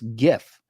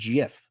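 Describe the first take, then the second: First: The word starts with a hard G sound. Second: The word starts with a soft G sound. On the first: The speaker calls it right. "hard G" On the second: The speaker calls it wrong. "It's not GIF"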